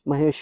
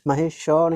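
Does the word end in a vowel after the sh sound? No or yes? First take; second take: no; yes. First: The word ends on a bare sh sound. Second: The final sh is followed by a full vowel. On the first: The speaker calls it right. "आधा मतलब थोड़ा बोला जा रहा है" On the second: The speaker calls it wrong. "महेश श नहीं"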